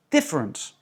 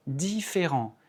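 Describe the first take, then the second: First: "different" with strong DIF, falling away; English "different", first syllable stressed, others reduced; English reduced vowels. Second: "différent" with every vowel pronounced evenly; French "différent", no vowel reduced; French, all vowels full. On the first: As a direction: punch DIF in "different", squash the rest. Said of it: "toutes les autres sont réduites". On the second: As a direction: say "différent" à la française, three clear syllables. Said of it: "on prononce toutes les voyelles". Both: Shown as a demonstration.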